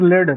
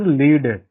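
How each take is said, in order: First: It is pronounced as the metal's name. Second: It is pronounced as the verb meaning guide. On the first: It names a metal. "that is one of the metal" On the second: It means to be the leader. "Lead means to be the leader"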